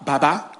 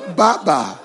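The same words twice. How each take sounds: First: The name has a native Nigerian pronunciation. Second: The name has an American pronunciation. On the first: A native speaker says it. "This our guy's name is Baba" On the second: A foreigner says it. "when you go to America, it is Baba"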